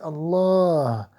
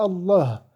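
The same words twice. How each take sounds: First: The vowel in the last syllable is long. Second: The vowel in the last syllable is short. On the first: The speaker calls it right. "il y a un alif qui n'est pas écrit, mais qu'il faut prononcer obligatoirement" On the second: The speaker calls it wrong. "c'est pas Allah"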